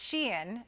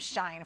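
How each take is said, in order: First: The name is said as two syllables, 'she-in'. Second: The name is said as one syllable, like 'shine'. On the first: The speaker calls it right. "It's Shein is the pronunciation" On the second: The speaker calls it wrong. "I called them Shine for a really long time"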